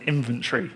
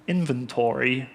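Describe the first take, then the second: First: It is pronounced the Northern English way. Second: It is pronounced the American way. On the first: "which is what we say here as proud Northerners" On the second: "I started saying inventory"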